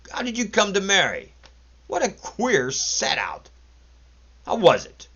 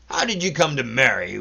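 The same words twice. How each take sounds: First: High mocking. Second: Mocking. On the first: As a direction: egg him on with ridicule. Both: A narrator's reading. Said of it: "less brutal and more mocking".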